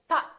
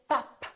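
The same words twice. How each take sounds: First: The final p is held without release. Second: The final p is released. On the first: The speaker calls it right. "I said pop" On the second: The speaker calls it wrong. "I didn't say pop"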